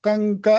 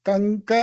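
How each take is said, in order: The two takes are said the same way.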